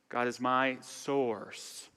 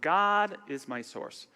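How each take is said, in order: First: The stress falls on the word source. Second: The stress falls on the word God. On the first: "emphasize each word" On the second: "emphasize each word"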